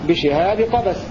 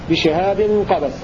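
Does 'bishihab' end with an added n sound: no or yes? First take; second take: no; yes. First: Bishihab has no n sound before qabas. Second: Bishihab ends with an n sound before qabas. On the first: The two nouns form a possessive construction showing type. "بدون تنوين بشهاب قبس على الإضافة" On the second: Qabas stands as a separate appositive noun. "بالتنوين بالقطع على الإضافة"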